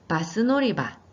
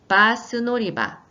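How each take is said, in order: First: The sounds are kept short and quick. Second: The sounds are stretched out long. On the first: The speaker calls it right. "짧게 해주시면 됩니다" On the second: The speaker calls it wrong. "제가 지금 발음을 길게 했는데"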